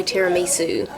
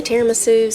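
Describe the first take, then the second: First: Tiramisu with a clear "ee" in the third syllable; tiramisu, "mee" before the "su". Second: Tiramisu with a reduced third syllable, "tair-uh-muh-SOO". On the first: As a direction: say tiramisu as "tair-uh-MEE-soo". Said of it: "some people say tiramisu". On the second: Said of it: "Some people say tiramisu". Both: Shown as a demonstration.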